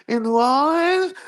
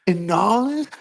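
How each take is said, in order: First: Much higher, louder, almost a cry of disbelief; shrieking disbelief. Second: Incredulous rising question. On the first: Podcaster reacting to the Super Bowl booking, squealing in disbelief. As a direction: push the question up into a squeal of disbelief. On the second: Disbelief at Super Bowl booking. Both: Real, not acted.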